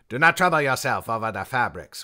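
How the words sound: It is read in a put-on character voice.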